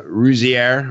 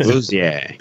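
First: Rouzier said slowly as roo-zee-AIR; mispronounced surname. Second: Rouzier the French way, roo-ZYAY with silent R; French accent. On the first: Real, not acted. Host stumbling over guest Max's surname, Rouzier mispronounced with a final "air". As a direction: say Rouzier with a hard, English-style R ending. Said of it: "I'm saying it wrong". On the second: Shown as a demonstration. Host copying the guest's lesson, Rouzier in French pronunciation. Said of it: "You say it with a French accent".

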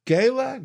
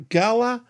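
First: "Gala" as GAY-la, high and questioning. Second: "Gala" as GAL-a, high and questioning. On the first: Host unsure how to say the gala's name, "Gala" as high GAY-la. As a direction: try "Gala" with a long A as in gale, pitched way up. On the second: Host unsure how to say the gala's name, "Gala" as high GAL-a. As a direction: try "Gala" with a short A as in gal, pitched way up. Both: Shown as a demonstration. Trying out two pronunciations of gala.

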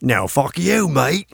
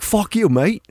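First: Higher-pitched rival Aussie-or-Kiwi accent, badly faked; second Antipodean accent. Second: High-pitched, badly faked Antipodean accent; attempted Antipodean accent. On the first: The other mate cussing back, in an attempted Antipodean accent. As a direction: answer back in another put-on Antipodean accent. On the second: One mate cussing another, in a shaky attempt at Antipodean accent. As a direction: fake an Aussie-or-Kiwi accent, pitched up. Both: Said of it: "See the difference there?".

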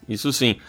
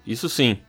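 Both takes have the same delivery.

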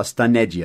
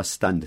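First: Stunned said as three syllables, stun-ne-di; stunned with an extra vowel and final i, stun-ed-ee; stunned spoken the wrong way, stun-ned-i; wrong pronunciation. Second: Stunned said as one syllable, ending in a plain D; stunned clipped short, one beat, only a D at the end; stunned with the final D and no extra vowel; right pronunciation. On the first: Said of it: "a gente não fala stunned". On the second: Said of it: "Só um som de D no final". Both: Shown as a demonstration.

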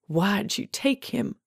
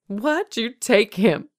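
First: Slow, tense, rising demand. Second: Slow, higher-pitched demand that falls at the end; insistent demand. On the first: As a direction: demand an answer, drawing the words out. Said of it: "she demanded". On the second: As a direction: press hard for an answer, word by word. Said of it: "she demanded again". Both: A narrator's reading.

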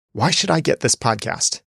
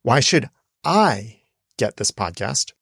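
First: "I" stressed in "Why should I get this podcast". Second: "I" stressed and drawn out, rising at the end; slow, lift the word "I" like a question; stress on I, slower. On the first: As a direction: lean on the word "I", falling at the end. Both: Shown as a demonstration. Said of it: "try emphasizing that differently".

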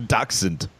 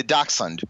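First: Dachshund said "dah-kahn", dropping the s and d; mispronounced Dachshund. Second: Dachshund said clearly as "dahk-sund"; corrected Dachshund. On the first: Acted. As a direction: garble Dachshund so it sounds like Dachau. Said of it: "Oh, Dachau style?". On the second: Shown as a demonstration. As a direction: say Dachshund properly, every sound in.

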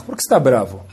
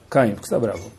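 First: Said in the usual way. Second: Softer, tender question by name; gentle asking. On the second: Shown as a demonstration. Hashem gently asking Caim why he is angry, soft and tender. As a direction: ask him softly, like a caring father.

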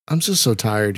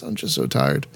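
First: Said in the usual way. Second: Low, drained, trailing off; exhausted sigh voice. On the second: Acted. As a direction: let the tiredness sink in. Repeats it, sinking into exhaustion.

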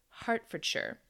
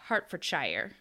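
First: "Hertfordshire" said the proper British way, ending clipped to "-sher"; correct pronunciation. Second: "Hertfordshire" with the ending said as "shy-er"; "Hertfordshire" read like an American, "-shire" rhyming with fire; wrong American pronunciation. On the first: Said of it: "But it is Hertfordshire". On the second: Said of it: "I thought it was Hertfordshire". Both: Shown as a demonstration.

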